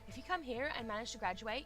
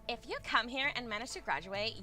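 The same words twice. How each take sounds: First: It is read in a normal voice. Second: It is read in a silly put-on voice.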